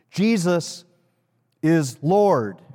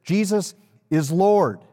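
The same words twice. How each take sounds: First: Long pause after "Jesus", then "is Lord" landed firmly. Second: Said in the usual way. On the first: Shown as a demonstration. Preacher to congregation, slow paused proclamation. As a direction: let "Jesus" hang, then drop "is Lord". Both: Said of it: "And here it is".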